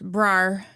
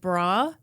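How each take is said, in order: First: It is said with a strong added R sound. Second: It is said plainly, with no added R.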